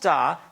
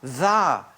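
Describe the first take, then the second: First: It begins with a plain d sound. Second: It begins with a soft dd sound. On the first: The speaker calls it wrong. "not da" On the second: The speaker calls it right. "Dda, not da, dda"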